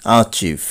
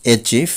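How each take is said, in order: First: অ্যাচিভ said "a-chiv"; corrected pronunciation. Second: অ্যাচিভ said "e-chiv"; common mispronunciation. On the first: Teacher correcting learners, অ্যাচিভ as "a-chiv". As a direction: say অ্যাচিভ with an "ah" start. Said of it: "সঠিক উচ্চারণ হবে". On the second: Teacher showing the common way, অ্যাচিভ as "e-chiv". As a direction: say অ্যাচিভ with an "e" start. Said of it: "আমরা বলে থাকি". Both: Shown as a demonstration.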